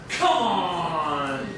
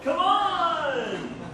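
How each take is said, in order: First: It sounds disbelieving, as if in protest. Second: It sounds rallying, as if urging someone along. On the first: Something is impossible. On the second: It is time to leave together. "let's go"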